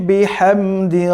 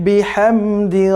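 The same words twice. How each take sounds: No difference in how they are said.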